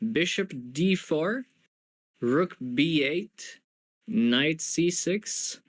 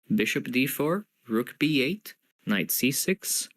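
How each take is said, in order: First: The moves are read at a slower pace. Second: The moves are read at a faster pace.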